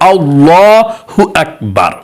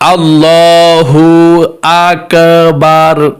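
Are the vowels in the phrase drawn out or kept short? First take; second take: short; drawn out. First: The vowels are kept short, without stretching. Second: The vowels are stretched out with a long drawl. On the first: The speaker calls it right. "আল্লাহু আকবার তো বলতে হয়" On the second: The speaker calls it wrong. "টান দিয়ে বলে"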